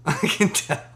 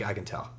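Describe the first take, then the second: First: Slow, high, laughing through the words; laughing repeat. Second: Said in the usual way. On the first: Retold or imitated. Mocking a newbie rapper's boast, laughing slowly. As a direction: crack up while repeating the jab.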